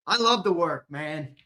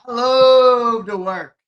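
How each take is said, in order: First: Said in the usual way. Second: Slow, loud, drawn-out; hammed-up proclamation. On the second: Streamer hyping up his work session, hammed-up proclamation. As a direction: belt it like a motto.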